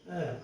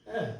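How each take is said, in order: No difference in how they are said.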